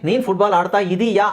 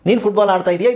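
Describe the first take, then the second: First: The final 'ya' is drawn out long. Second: The final 'ya' is short. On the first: It is a question. "ಈ ಯಾನ ಸ್ವಲ್ಪ ಜಾಸ್ತಿ ಎಳಿತೀವಿ" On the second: It is a statement. "ಇದು sentence"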